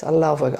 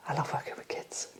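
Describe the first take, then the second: First: Said in the usual way. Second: Soft whisper. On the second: Real, not acted. To the interviewer, a fond whispered aside about loving kids. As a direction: breathe the words out in a whisper. Repeating that she loves working with kids.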